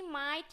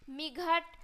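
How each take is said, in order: First: The gh is silent and the vowel glides. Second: The gh is pronounced as a g sound. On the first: The speaker calls it right. "इस तरीके से पढ़ना है" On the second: The speaker calls it wrong. "गलत है"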